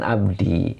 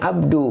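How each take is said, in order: First: The word ends with an 'i' vowel. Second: The word ends with an 'u' vowel. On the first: The speaker calls it wrong. "bukan abdi" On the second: The speaker calls it right. "bacanya abdu"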